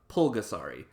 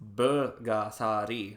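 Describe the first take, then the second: First: The name begins with a P sound. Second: The name begins with a B sound. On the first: The speaker calls it wrong. "not a P" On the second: The speaker calls it right. "the correct way to pronounce Burgasari is with a B"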